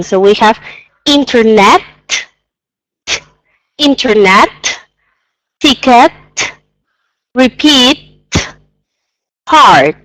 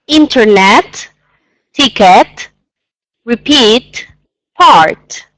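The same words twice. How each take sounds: First: Teacher's overdone articulation; exaggerated pronunciation. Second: Word by word, final T and D overdone; teacher's overdone articulation; exaggerated pronunciation. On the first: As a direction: stretch every consonant clearly. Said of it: "I'm gonna exaggerate a little bit the pronunciation". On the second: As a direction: lean on every consonant. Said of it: "again, it's exaggerating a little bit". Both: Shown as a demonstration.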